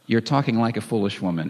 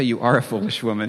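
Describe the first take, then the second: First: "talking" stressed, then falling away. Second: "are" stressed as a flat accusation. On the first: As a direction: put the weight on "talking like". Contrasts what Job did say. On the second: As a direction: put the weight on "are". Contrasts what Job didn't say. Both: Retold or imitated.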